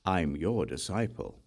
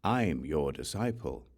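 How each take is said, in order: Both takes have the same delivery.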